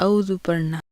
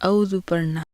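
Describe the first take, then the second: No difference in how they are said.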